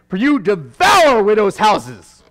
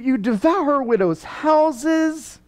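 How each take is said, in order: First: It is said boldly and forcefully. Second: It is said hesitantly and apologetically.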